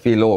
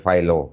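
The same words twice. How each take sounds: First: The name is said with an Indonesian pronunciation. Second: The name is said with an English pronunciation. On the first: "Kita sebutnya Philo" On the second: "Kalau orang Inggris bilangnya Philo gitu ya"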